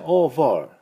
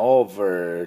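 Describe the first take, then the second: First: British "over" ending in open "ah", no R; British accent. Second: American "over" with a held R; American accent. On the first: Teacher comparing accents for learners, British "over". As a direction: drop the R in "over", British style. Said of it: "イギリス人はover". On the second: Teacher comparing accents for learners, American "over". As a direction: curl the final R of "over", American style. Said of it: "アメリカ人はoverって言いますが". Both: Shown as a demonstration.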